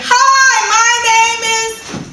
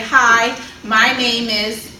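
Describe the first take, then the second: First: It is yelled very loudly. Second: It is said loudly and clearly without yelling.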